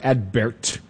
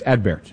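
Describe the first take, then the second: First: The T is not lightly brushed. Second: The T is audible but only lightly brushed. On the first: The speaker calls it wrong. "it's not Adbert or Adbert" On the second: The speaker calls it right. "the T is pronounced, but it is not pronounced powerfully"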